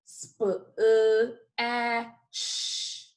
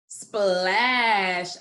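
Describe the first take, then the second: First: SPLASH broken into separate sounds, sp, uh, a, sh; segmented phonics sounds, sp... uh... a... sh; sounded out by phonemes. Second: Said in the usual way. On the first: Shown as a demonstration. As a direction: say each sound of splash alone with gaps. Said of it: "gonna say the sounds". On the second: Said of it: "put all those sounds together".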